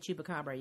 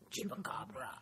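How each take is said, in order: First: It is said in a normal voice. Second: It is said in a creepy voice.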